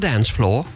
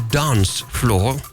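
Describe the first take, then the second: First: It is said in a non-British accent. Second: It is said in a British accent.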